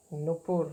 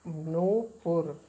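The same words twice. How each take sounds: First: नुपुर with a short u in the first syllable; the wrong नुपुर, quick short नु; wrong pronunciation. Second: नूपुर with a long, drawn-out ऊ, very slow; correct pronunciation. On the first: Teacher says the word the wrong way for students, short नु. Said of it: "नुपुर नहीं बल्कि होता है नू". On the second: Teacher models the correct word for students, long slow नू. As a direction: stretch the नू in नूपुर slowly and clearly. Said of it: "नहीं बल्कि होता है नू". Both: Shown as a demonstration.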